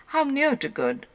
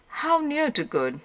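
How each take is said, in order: Both takes have the same delivery.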